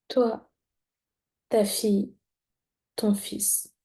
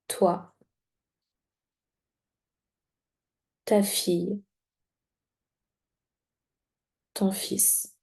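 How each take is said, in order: First: The words are said at an ordinary pace. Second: The words are said slowly and very distinctly.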